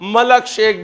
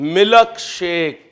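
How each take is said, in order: First: The first word is said as 'malak'. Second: The first word is said plainly as 'milk'. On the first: "कुछ ज्यादा ही high English हो जाए तो मलक shake भी बन जाता है" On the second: "जैसे मिल्क शेक"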